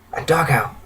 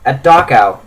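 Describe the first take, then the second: First: Soft, weak, subdued voice; hushed, pained refugee voice; crying dryly. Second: Said in the usual way. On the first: A narrator's reading. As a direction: say it frailly, as if worn out from dry tears. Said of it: "starts crying dryly".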